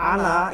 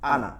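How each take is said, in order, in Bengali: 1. শেষের স্বরটি লম্বা করে টানা হয়। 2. শেষের স্বরটি ছোট, টানা হয় না। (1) "এখানে এক আলিফ টান আছে" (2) "টান দেয় না, মনে হয় যে নুন, শুধু নুন আছে"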